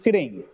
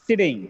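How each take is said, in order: First: The T sound is single and short. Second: The T sound is single and short.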